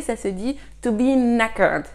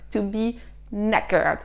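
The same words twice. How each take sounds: First: Said in the usual way. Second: "knackered" slow, starting on N with the K silent. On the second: Shown as a demonstration. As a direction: say "knackered" as "nackered". ("knackered" lentement, sans prononcer le K) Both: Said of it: "Ne prononcez pas le K".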